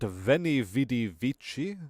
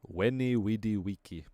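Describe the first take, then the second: First: Vici begins with a v sound. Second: Vici begins with a w sound. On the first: The speaker calls it wrong. "it wasn't Veni Vidi Vici" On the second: The speaker calls it right. "it was Veni Vidi Wiki"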